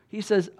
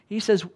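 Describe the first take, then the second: No difference in how they are said.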